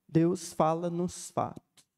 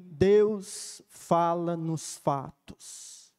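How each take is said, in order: First: Said in the usual way. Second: Each word slowly and gravely, Deus fala nos fatos; slow solemn reading. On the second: Shown as a demonstration. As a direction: read the inscription slowly, pausing on Deus. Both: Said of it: "eles escreveram assim".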